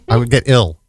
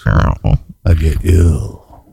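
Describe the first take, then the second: First: It is said in his normal voice. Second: It is said in a deep, low voice.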